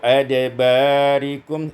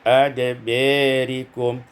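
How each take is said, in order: First: The vowel after b is an open a. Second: The vowel after b leans toward e.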